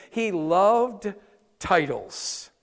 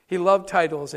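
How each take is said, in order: First: "loved" stretched and leaned on, pause before "titles"; slow stress on loved. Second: Said in the usual way. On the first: Shown as a demonstration. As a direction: hold "loved", wait, then drop "titles".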